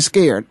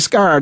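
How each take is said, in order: First: The vowel sounds like the one in 'care'. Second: The vowel sounds like the one in 'car'. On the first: It is how people elsewhere usually say it. "They don't say scared" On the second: It mimics how people from St. Louis say it. "My wife is from St. Louis. They say scarred"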